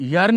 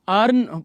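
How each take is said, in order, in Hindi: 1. शब्द की शुरुआत य की आवाज़ से होती है। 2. शब्द की शुरुआत सादी स्वर की आवाज़ से होती है। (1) "यर्न नहीं पढ़ेंगे इसको" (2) "यू आर एन अर्न पढ़ेंगे हम"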